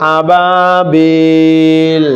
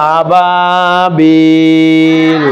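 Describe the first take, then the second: Both takes have the same delivery.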